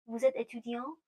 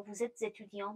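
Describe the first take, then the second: First: Said in the usual way. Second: "vous êtes étudiant" with "êtes" and "étudiant" run together; with liaison. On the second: Shown as a demonstration. French teacher shows the optional link, "êtes étudiant" joined by liaison.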